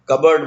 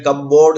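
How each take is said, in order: First: It is said as one short word, kubberd. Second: It is said as cup plus board. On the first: The speaker calls it right. "कबर्ड बोलना है" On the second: The speaker calls it wrong. "बोलते वक्त हमें कपबोर्ड नहीं बोलना है"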